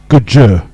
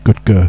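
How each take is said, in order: First: The name is said like the fish gudgeon. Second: The name is not said like gudgeon. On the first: The speaker calls it right. "Gudger is how you pronounce it, like the fish gudgeon" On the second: The speaker calls it wrong. "not Gudger"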